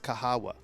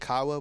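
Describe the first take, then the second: First: The name is said with three syllables. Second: The name is said with two syllables. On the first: The speaker calls it right. "but I think it's Kahawa" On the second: The speaker calls it wrong. "I was saying Kawa"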